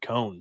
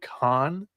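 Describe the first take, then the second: First: The vowel is long, rhyming with 'bone'. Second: The vowel is short, rhyming with 'on'. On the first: This is how the speaker always said it. The speaker calls it wrong. "I've always said Cone" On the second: This is how others say the name. The speaker calls it right. "is maybe how you pronounce his last"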